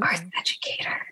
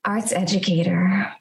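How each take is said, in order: First: It is spoken in a whisper. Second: It is spoken in a normal voice.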